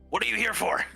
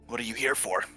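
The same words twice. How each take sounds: First: It is said slightly louder. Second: It is said at normal volume.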